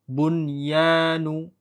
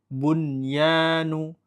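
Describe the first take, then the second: First: The n sound is pronounced clearly before y. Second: The same.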